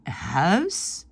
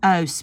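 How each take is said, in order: First: Huis with a breathed h at the start; audible h. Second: Huis with a silent h; wrong, dropped h. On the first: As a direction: puff out the h of huis, drawn out. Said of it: "on prononce le H". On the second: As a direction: start huis straight on the vowel. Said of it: "on ne dit pas". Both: Shown as a demonstration.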